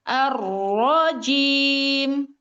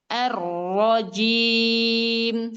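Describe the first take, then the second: First: The ra is pushed with a sudden extra stress. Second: The ra is said plainly, without a pushed stress. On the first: The speaker calls it wrong. "Kalau naber" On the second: The speaker calls it right. "Ketika dijelaskan gini"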